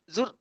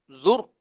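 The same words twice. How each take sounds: First: The syllable is said thin and light. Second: The syllable is said thick and heavy. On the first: The speaker calls it wrong. "Jangan baca zur" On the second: The speaker calls it right. "Zur kena tebalkan"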